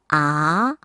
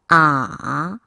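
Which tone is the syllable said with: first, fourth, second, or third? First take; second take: second; third. First: The syllable is said with the second tone. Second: The syllable is said with the third tone. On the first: "이 성" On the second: "삼 성"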